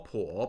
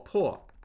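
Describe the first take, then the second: First: The pitch dips low then rises. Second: The pitch falls sharply from high.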